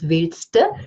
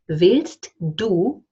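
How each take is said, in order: First: The d drops and du becomes a schwa. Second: The du is said fully with a clear d.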